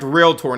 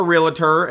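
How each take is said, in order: First: "realtor" in two syllables, REEL-tor, said firmly; correct pronunciation. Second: "realtor" said with an extra syllable, REE-la-tor; mock the mistake with "realtor" stretched to REE-la-tor; wrong Southern pronunciation. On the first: Instructor settling the debate for Southern students, firm REEL-tor. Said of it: "It is, in fact". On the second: Instructor mocking Southern students' word, three-syllable REE-la-tor. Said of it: "we put extra syllables where they don't belong". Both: Shown as a demonstration.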